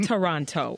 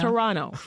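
First: The second T sound is clearly pronounced. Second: The second T sound is dropped. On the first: This is how outsiders say the city name. The speaker calls it wrong. "As you Americans say" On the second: This is how locals say the city name. The speaker calls it right. "we don't say the second T"

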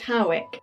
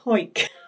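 First: The name is said as two syllables. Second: The name is said as one syllable. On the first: This is how some people say the name. "some people pronounce it Howick" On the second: This is how local people say the name. "people from Hoik tend to call it Hoik"

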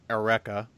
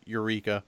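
First: It is said the way anime fans say it. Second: It is said in a lazy, casual way. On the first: "Anime fan way of pronouncing it" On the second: "This is the really lazy way to pronounce it"

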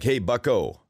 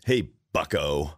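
First: It is said in a friendly way. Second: It is said with scorn and derision.

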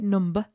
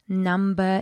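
First: It is said in a northern English accent. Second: It is said in a standard English accent. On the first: "where I lived for 15 years in north of England, we say number" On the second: "pronounced number in standard English"

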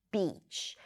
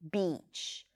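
No difference in how they are said.

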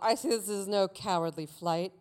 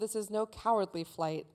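First: The line is read in a put-on character voice. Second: The line is read in a plain, ordinary voice.

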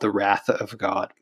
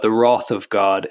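First: Wrath is said with an American pronunciation. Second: Wrath is said with a British pronunciation.

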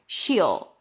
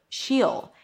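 No difference in how they are said.

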